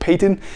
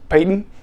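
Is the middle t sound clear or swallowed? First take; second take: clear; swallowed. First: The middle t sound is clearly and crisply pronounced. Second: The middle t sound is swallowed, not clearly pronounced. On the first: "instead of Peyton" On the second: "you usually don't enunciate, so you just say names like Peyton as Peyton"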